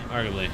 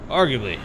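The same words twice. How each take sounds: First: Said in the usual way. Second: "Arguably" said loudly with a falling tune; loud emphatic. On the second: Shown as a demonstration.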